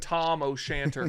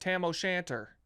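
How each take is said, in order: First: The first vowel sounds like the one in father. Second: The first vowel sounds like the one in cat. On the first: This is the course's real name. "it's the Tom O'Shanter Golf Course" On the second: Another golfer says the name this way. "He's like, "The Tam, Tam O'Shanter,""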